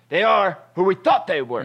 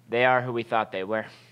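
First: It is said loudly, with strong passion. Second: It is said calmly, without much passion. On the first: The speaker calls it right. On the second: The speaker calls it wrong.

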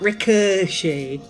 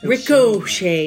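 First: The middle vowel is a weak reduced sound. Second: The middle vowel is a clear full O. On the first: The speaker calls it wrong. "not ricochet" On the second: The speaker calls it right. "I really like saying ricochet because it's an O in it"

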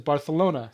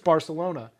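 First: The 'c' is said with a 'th' sound. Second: The 'c' is said with an 's' sound. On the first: "having a lisp, he says Barcelona" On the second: "It's Barcelona"

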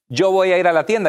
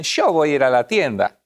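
First: It is said in neutral Spanish pronunciation. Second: It is said with an Argentine accent.

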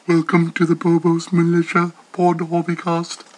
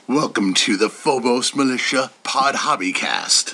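First: It is said in a robotic computer voice. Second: It is said in a deep Batman voice.

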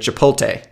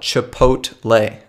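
First: The L sound comes before the T sound. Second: The T sound comes before the L sound. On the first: The speaker calls it wrong. "so many people say Chipotle... you are transposing the T and the L" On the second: The speaker calls it right. "That's the way it's spelled"

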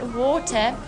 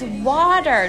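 First: It is said with a South African accent. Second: It is said with an American accent.

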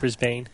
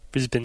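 First: The second syllable's vowel is fully pronounced. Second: The second syllable's vowel is reduced and short. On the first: The speaker calls it wrong. "Not Brisbane" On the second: The speaker calls it right. "You're not supposed to pronounce the A or the E"

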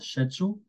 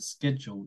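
First: It is said with a British pronunciation. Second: It is said with an American pronunciation. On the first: "using the British pronunciation" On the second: "using the American pronunciation"

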